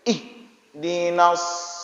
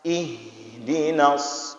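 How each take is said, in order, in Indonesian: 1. Bunyi h dipotong tiba-tiba. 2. Bunyi h mengalir terus dengan hembusan napas. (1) "lagi orang terkejut. ... Enggak boleh seperti itu" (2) "Huruf H itu huruf yang jalan"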